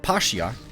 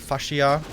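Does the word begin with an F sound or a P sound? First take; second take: P sound; F sound. First: The word begins with a P sound. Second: The word begins with an F sound.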